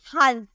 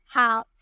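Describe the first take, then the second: First: 'हाल्फ' with the L pronounced; L sounded. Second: 'हाफ' with no L sound; silent L. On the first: Teacher showing learners the mistake, 'हाल्फ' with an audible L. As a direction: wrongly voice the silent L in 'हाल्फ'. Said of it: "लेकिन नहीं". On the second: Teacher giving learners the correct word, 'हाफ' with L silent. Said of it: "ये silent है". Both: Shown as a demonstration.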